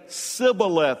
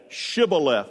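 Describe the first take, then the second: First: The word begins with a plain s sound. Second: The word begins with an sh sound. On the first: The speaker calls it wrong. "They could not say the SH sound" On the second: The speaker calls it right. "You're saying it right"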